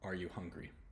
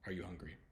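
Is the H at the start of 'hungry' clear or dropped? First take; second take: clear; dropped. First: The H in hungry is clearly pronounced. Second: The H in hungry is nearly silent. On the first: The speaker is being careful. "if I'm really trying to pronounce it" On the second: The speaker is talking casually and not paying attention. "just sort of mumbling"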